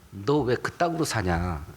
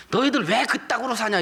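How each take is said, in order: First: Low, slow rebuke. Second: High, scornful jab at church people; scornful jeer. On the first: Lowly boatmen rebuking Jonah, low and slow. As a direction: lower and slower, a heavy reproach. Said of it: "이렇게 책망을 들어요". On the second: Unbelievers scorning church members, high and jeering. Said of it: "불신자들이 성도들 보고". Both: Retold or imitated.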